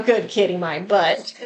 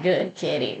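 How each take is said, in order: First: Said in the usual way. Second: "Good kitty" said lower and softer, a mild creepy ghost voice. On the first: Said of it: "You don't get to tell me that". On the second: Retold or imitated. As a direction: lightly voice the creepy intruder, dropping low and soft on "Good kitty". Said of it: "I'm sick and tired of that creepy voice".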